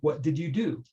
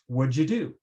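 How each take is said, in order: First: Every word is said fully and separately. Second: The words 'what did' run together into 'what'd'. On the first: "the citation pronunciation would be" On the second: "what learners might hear is"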